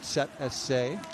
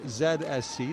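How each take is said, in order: First: The letters are said with a German pronunciation. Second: The letters are said with an American accent. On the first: "we go with the German pronunciation here" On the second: "American English"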